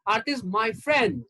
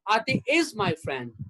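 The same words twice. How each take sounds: First: The word friend carries the stress. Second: The word is carries the stress. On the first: She is a friend, not a partner or relative. "That means she's my friend and she's not my wife or my girlfriend or my sister" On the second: The friendship continues in the present. "That means she is still my friend"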